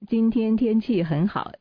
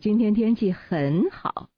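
First: No word is given special stress. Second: The word 很好 is stressed. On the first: "这是没有重点的" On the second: "那重点就在这个很好了"

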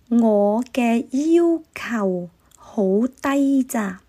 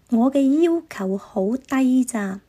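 First: It is spoken slowly. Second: It is spoken at normal speed. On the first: "我先慢的说一次" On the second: "下面我用正常的语速说一次"

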